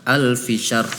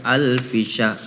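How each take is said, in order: Both takes have the same delivery.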